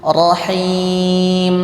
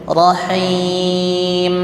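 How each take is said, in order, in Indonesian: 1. Huruf m di akhir berdengung panjang lewat hidung. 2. Huruf m di akhir berdengung panjang lewat hidung.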